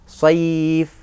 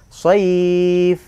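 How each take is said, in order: First: The vowel is held for one beat. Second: The vowel is held for two beats. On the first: "Boleh satu"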